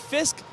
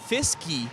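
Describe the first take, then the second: First: The name ends with a plain 'k' sound. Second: The name ends with an added 'ee' sound. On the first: This is the player's real name. The speaker calls it right. "It's actually Fisk" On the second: This is the player's nickname. The speaker calls it wrong. "He said Fisky"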